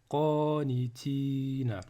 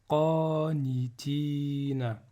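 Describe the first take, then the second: No difference in how they are said.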